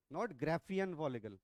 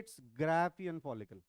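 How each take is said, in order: First: Graafian said slowly as GRAY-fian, the way students say it; wrong pronunciation. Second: Graafian said slowly as GRAA-fian, with a long open a; correct pronunciation. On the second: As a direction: draw out GRAA in Graafian, slow and clear. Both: Shown as a demonstration. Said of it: "इसका pronunciation सुनिए क्या है".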